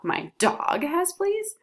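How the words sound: The stress is on the word dog. Another animal or person was expected to have fleas. "When I put the emphasis on dog"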